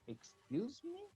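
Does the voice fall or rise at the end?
rise. The voice rises at the end. The speaker did not understand and wants it repeated. "when you don't understand, ... I changed the intonation"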